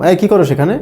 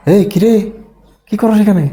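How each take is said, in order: First: Simple friendly question, rising at the end; just ask, voice lifting at the end; casual questioning tone. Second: Higher-pitched challenge, falling at the end; changed, challenging tone. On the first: Asking a friend outside a restaurant, casual question. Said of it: "মানে প্রশ্ন করলাম". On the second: Catching a friend outside a bar, challenging question. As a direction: call the friend out, suspicion in the question. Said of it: "কিন্তু tone কি করেছে?". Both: Acted.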